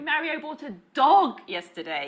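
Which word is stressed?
dog. The word dog carries the main stress. It was a dog, not a frog.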